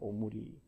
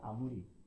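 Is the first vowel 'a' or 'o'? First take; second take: o; a. First: The first vowel is pronounced as 'o'. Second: The first vowel is pronounced as 'a'. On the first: The speaker calls it right. "아무리가 아니라 오무리가 되는 겁니다" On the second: The speaker calls it wrong. "딱 봤을 때 아무리 같잖아요"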